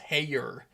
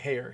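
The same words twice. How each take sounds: First: It is said with a Texan accent. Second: It is said without a Texan accent.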